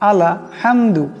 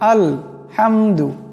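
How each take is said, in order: First: An extra vowel follows the l sound. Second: The l sound closes the syllable with no vowel. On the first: The speaker calls it wrong. "আলা আলা আলা হামদু এমন করে উচ্চারণ করি, সেটা কিন্তু ভুল।" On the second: The speaker calls it right. "আসলে তার উচ্চারণটা হলো আল আল হামদু"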